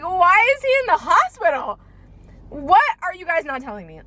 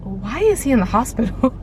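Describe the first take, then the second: First: Higher, rising alarm on the hospital line; panicked question. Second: Said in the usual way. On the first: Retold or imitated. Reliving the FaceTime call, panicked high question. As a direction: voice jumps up in fear. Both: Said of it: "I'm like".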